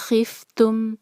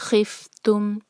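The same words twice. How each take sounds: Both takes have the same delivery.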